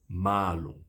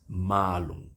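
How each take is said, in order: The two takes are said the same way.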